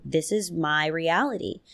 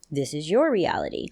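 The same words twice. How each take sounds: First: My reality with weight on my; "my" set against "your"; stress on my. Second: Your reality with weight on your; "your" set against "my"; stress on your. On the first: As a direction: lean on the word "my" in "this is my reality". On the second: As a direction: punch "your" in "This is your reality" as the contrast. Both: Shown as a demonstration.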